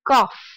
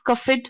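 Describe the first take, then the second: First: The ending is a short 't' sound. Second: The ending is an extra 'id' syllable. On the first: The speaker calls it right. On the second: The speaker calls it wrong.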